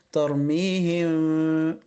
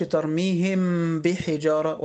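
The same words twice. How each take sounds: First: Very slow "ترميهم" with hidden nasal meem; ikhfa demo. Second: Slow, the meem of "ترميهم" said fully before "بحجارة"; clear, open meem in "ترميهم"; wrong clear meem. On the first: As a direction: meem of "ترميهم" hummed, lips barely closing. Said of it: "ولكن أقول إيه". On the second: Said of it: "ما أقولش". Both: Shown as a demonstration.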